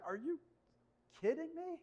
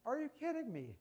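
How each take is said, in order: First: Stunned, can't believe it; high incredulous are you kidding me. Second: Flat disbelief. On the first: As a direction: pitch leaps high in disbelief. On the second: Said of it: "Like, are you kidding me?". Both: Real, not acted.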